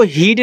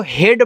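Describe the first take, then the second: First: हीड said with a long ee sound, heed; हीड को लंबी ई के साथ, गलत उच्चारण; wrong reading. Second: हेड said with a short e sound, head; हेड को छोटी ए के साथ, सही उच्चारण; right reading. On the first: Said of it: "इसको हीड नहीं पढ़ना है". (गलत पढ़ाई: हीड, लंबी ई) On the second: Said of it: "इसको हेड पढ़ना है". (सही पढ़ाई: हेड, छोटी ए) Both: Shown as a demonstration.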